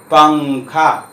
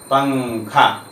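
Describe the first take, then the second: First: पंखा very slow with a clear ङ before खा; slow nasal demo. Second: Said in the usual way. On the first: Shown as a demonstration. Teacher showing students the ङ in पंखा, slow and drawn out. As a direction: drag पंखा out so the ङ sound rings. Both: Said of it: "ङा सुनाई पड़ेगा".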